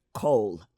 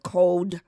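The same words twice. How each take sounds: First: Cold with the final d dropped, like cole. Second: Cold with the final d sounded; standard cold. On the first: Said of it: "we will leave off a consonant". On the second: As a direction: say cold ending on a clear d. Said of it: "instead of cold". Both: Shown as a demonstration.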